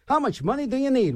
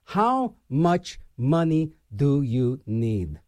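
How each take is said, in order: First: Higher, bright game show host asking the big question; lightly voiced game show host question. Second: Slow low rhetorical question, drawn out; slow, pointed rhetorical jab; slow, heavy question. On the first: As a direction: pitch it up like a quiz show host. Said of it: "that should be a game show". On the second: Real, not acted. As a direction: drag it out slowly and lower, pressing the point. Ranting question about greedy CEOs.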